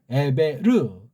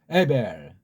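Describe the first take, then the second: First: It has three syllables, ending in a full 'reu'. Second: It has two syllables, ending in a soft l. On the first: "그게 좀 더 서양 소리에 조금 더 가깝고" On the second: "부드러운 리을로 처리할 수도 있겠죠"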